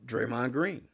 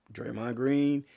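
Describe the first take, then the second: No difference in how they are said.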